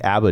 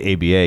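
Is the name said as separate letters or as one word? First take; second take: one word; separate letters. First: The letters run together as one word. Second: Each letter is said separately. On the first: It sounds like the name of a disco band. The speaker calls it wrong. "how come there isn't any news in here about disco?" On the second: It names the professional association. The speaker calls it right. "You have to say A B A"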